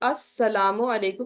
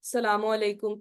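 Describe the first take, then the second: First: Every syllable is said in full, starting with 'as'. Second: The opening syllable is dropped, the u is kept. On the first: The speaker calls it right. "Proper अस्सलामु अलैकुम" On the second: The speaker calls it wrong. "ऐसे नहीं"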